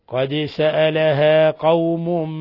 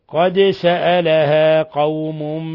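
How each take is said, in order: Both takes have the same delivery.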